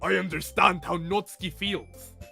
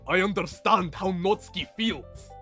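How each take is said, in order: First: It slips out of the put-on Yuri voice. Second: It is said in the put-on Yuri voice.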